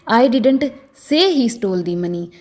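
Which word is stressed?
say. The stress is on the word say. It may have been conveyed some other way, like a gesture. "अगर मैं से पर जोर डालकर बोलूं"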